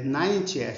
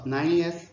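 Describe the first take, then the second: First: The middle T is a crisp, clear T. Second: The middle T is softened into a flap.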